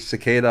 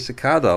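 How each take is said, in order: First: It is said with an American pronunciation. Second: It is said with a British pronunciation. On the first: This is how the other speaker's country says it. "You say cicada" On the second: This is how the speaker personally says it. "I say cicada"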